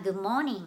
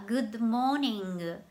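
First: "Good morning" with no added vowels and the consonants barely sounded; native Good morning. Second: "Good morning" said slowly as "guddo mōningu", a vowel after each consonant; Japanese-style Good morning. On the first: Teacher showing learners how a native says "Good morning", light and connected. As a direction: glide through "Good morning" like a native speaker. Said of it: "ネイティブの人が話すのを聞いたら". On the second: Teacher showing Japanese learners how they say "Good morning", slow and katakana-style. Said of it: "Gの後にOをつけて". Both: Shown as a demonstration.

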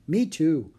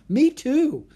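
First: Said in the usual way. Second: High, loud, excited chime-in; eager agreement. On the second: Acted. Annie agreeing she loves all creatures, excited. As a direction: jump in with delight.

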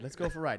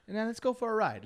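First: Said in the usual way. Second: Higher, building up excitement; revving up the story; hyped up. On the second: Real, not acted. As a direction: announce the ride with energy. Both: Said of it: "bring it way back up".

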